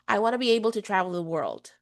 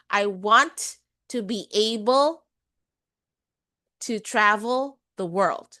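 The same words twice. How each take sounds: First: The words glide together with some sounds dropped. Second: Every syllable is stressed separately and fully pronounced. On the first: "That's a glide" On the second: "kung i-stress ko bawat syllable"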